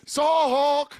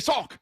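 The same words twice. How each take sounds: First: The vowel is stretched out long. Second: The word is said short and plain.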